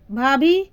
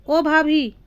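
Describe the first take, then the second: First: Calling out. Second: Calling out again. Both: A narrator's reading. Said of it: "जोर से अपनी भाभी को आवाज़ लगाई".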